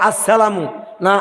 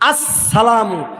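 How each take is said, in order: First: The s is followed by an 'i' vowel. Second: Double s followed by an 'a' vowel. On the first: The speaker calls it wrong. "অনেকে সিনের নিচে জের দেয়" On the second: The speaker calls it right. "সিনটা ডবল উচ্চারণ হবে, সিনের উপরে তাসদিদ"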